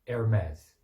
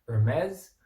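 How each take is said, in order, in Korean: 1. 미국 영어 억양으로 말합니다. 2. 미국 영어 억양으로 말합니다.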